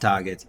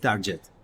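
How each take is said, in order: First: The g is a hard g sound. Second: The g sounds like a j. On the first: The speaker calls it right. "It's target" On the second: The speaker calls it wrong. "G is J, so it's target"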